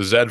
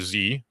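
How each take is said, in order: First: The letter is said as zed, Canadian style. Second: The letter is said as zee, American style.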